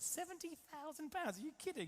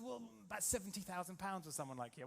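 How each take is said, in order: First: Much higher-pitched, astonished mock disbelief; incredulous outburst. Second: Said in the usual way. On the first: Pupil to flying instructor on hearing the price, shocked disbelief. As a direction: replay your shock in a high squeak.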